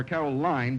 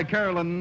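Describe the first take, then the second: First: "Caroline" ending in a long line; "Caroline", rhyming its ending with fine; alternative name pronunciation. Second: "Carolyn" ending in an unstressed lin; "Carolyn", rhyming its ending with win; alternative name pronunciation. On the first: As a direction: say "Caroline" with a final syllable like line. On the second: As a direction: say "Carolyn" with a short final syllable, like lin. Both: Shown as a demonstration. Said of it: "or Caroline".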